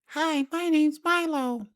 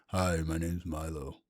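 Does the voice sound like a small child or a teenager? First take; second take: small child; teenager. First: It is said in a small child's voice. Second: It is said in a teenager's voice.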